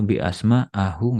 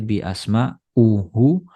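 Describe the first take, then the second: First: The ending uses the vowel a. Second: The ending uses the vowel u. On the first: "nggak boleh" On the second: "Nggak boleh"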